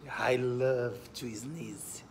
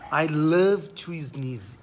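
First: Said in the usual way. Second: Love stretched slow and loud; slow loud teaching read, love stressed. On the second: Shown as a demonstration. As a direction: lean hard on love, slowly.

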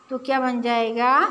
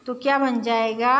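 The two takes are said the same way.

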